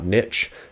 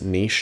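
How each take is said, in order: First: It is said the American way, like 'nitch'. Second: It is said the non-American way, like 'neesh'.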